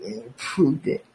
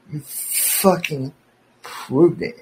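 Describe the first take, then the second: First: Said in the usual way. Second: "You fucking proved it" dragged out slowly, each word leaned on; slow emphatic repeat. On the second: Real, not acted. Ranting at his ex-cohost, slowly stressing "proved it". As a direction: spell out "proved it" slowly to rub it in. Repeats the phrase, then hammers it.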